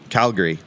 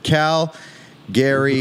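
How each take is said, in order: First: The word is said smoothly without a pause. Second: A pause splits the word into two parts. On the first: The speaker calls it right. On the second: The speaker calls it wrong.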